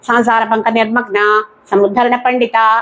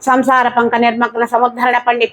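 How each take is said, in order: First: There is a pause after the first word. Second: The whole name is said without a break. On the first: The goddess herself is sunk in worldly life. The speaker calls it wrong. "ఈ రిథంకి అలవాటు పడి అమ్మవారిని సంసార పంక నిర్మగ్న సముద్ధరణ పండిత అని చదువుతూ ఉంటారు" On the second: The goddess lifts people out of the mire of worldly life. The speaker calls it right. "అనే నామం ఉన్న చోట"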